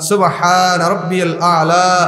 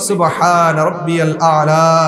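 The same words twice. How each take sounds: Both takes have the same delivery.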